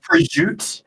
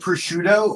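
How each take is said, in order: First: It is said in a New York Italian-American accent. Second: It is said in a standard way.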